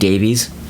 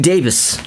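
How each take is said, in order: First: The name ends with a long 'veez' sound. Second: The name ends with a short 'vis' sound. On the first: This is how Americans usually say the name. The speaker calls it wrong. "Americans insist on, on saying Davies" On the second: This is how the name is properly said. The speaker calls it right. "I'm gonna try to say it correctly"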